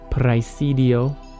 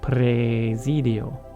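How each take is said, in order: First: The first vowel sounds like ai. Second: The first vowel sounds like a long e. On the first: "the A E in praesidio" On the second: "becomes an E. It's basically like a long E"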